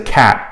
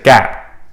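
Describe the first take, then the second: First: The word begins with a k sound. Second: The word begins with a g sound. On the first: The speaker calls it right. "they're not going to say cat" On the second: The speaker calls it wrong. "they're going to say gat, which of course is gibberish"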